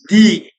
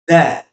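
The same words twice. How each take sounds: First: It uses the form said before vowel sounds. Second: It uses the form said before consonant sounds. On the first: "should be pronounced as the before vowel phonemes" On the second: "before consonant phonemes, the the should be pronounced as the"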